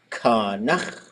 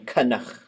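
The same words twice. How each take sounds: First: The vowel is long and low. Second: Both vowels are flattened with lowered tone. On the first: "with a long, low vowel" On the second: "where both vowels get flattened. The tone gets lowered"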